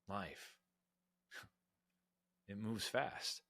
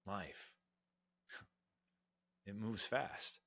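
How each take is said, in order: First: It is said in a reflective, thoughtful way. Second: The same.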